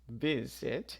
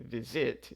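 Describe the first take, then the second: First: The stress is on the first syllable. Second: The stress is on the second syllable. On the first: The speaker calls it right. "we stress the first syllable" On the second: The speaker calls it wrong. "we don't say visit"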